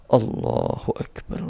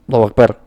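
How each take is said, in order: First: It is said slowly and calmly. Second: It is said quickly and hurriedly. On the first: The prayer is performed calmly and unhurried. The speaker calls it right. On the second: The prayer is rushed. The speaker calls it wrong. "bukan gitu"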